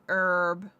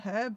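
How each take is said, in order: First: The word begins with a vowel, no h. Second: The word begins with an audible h sound. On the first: "Americans say herb because they don't like H" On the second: "I say herb with a h"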